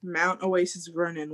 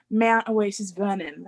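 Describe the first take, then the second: First: Said in the usual way. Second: Imitated Australian accent, drawn out; Australian-accented place name, said slowly. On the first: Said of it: "she had, like, a slight accent". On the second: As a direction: copy a girl's slight Australian accent.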